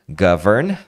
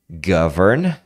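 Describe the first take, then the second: No difference in how they are said.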